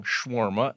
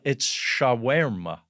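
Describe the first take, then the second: First: Put-on Shawarma said the old way as "shwarma", squashed into two quick syllables; old wrong way. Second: Shawarma said slowly and carefully as "sha-wer-ma", each syllable spelled out; corrected pronunciation. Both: Shown as a demonstration. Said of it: "I learned that I'm saying it wrong".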